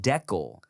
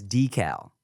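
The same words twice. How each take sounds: First: "decal" as DECK-ul, short e first; DECK-al pronunciation. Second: "decal" as DEE-cal, long ee first; DEE-cal pronunciation. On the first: Retold or imitated. Quoting how Chia said it, "decal" as DECK-ul. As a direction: say "decal" to rhyme with "heckle". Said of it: "Chia said decal". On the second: Shown as a demonstration. Telling the cohost how everyone says it, "decal" as DEE-cal. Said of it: "everyone else I know says decal".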